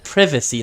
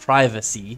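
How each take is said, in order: First: It is said with a British pronunciation. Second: It is said with an American pronunciation. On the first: This is how the character said it. The speaker calls it wrong. "Is that how British people pronounce privacy? ... He said privacy" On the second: This is the pronunciation the speaker expected. The speaker calls it right. "not privacy"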